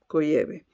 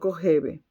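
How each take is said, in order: First: The middle consonant is a y sound. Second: The middle consonant is a throaty h sound. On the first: The speaker calls it right. "se pronuncia Koyeve" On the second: The speaker calls it wrong. "no Kojeve"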